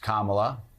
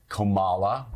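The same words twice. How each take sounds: First: The name is said in its usual form. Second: The name is said in an altered form. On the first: It respects the person's own name. The speaker calls it right. "pronounce Kamala Harris's name correctly" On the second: It makes the person seem like an outsider. The speaker calls it wrong. "Trump Republicans that will say Kamala"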